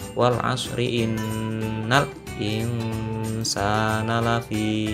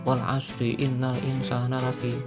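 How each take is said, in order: First: It is recited slowly, with the nasal sound held. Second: It is recited fast, with the nasal sound lost. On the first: The speaker calls it right. "ada dengungnya" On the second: The speaker calls it wrong.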